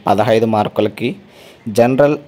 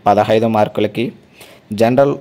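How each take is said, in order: Both takes have the same delivery.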